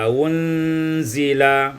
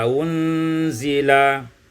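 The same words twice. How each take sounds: The two takes are said the same way.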